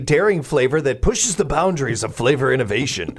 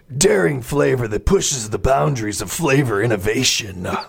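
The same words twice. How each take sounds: First: It is read in a plain, ordinary voice. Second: It is read in a dramatic announcer voice. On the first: The speaker calls it wrong. "I didn't say that right" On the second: The speaker calls it right. "you got to really sell it"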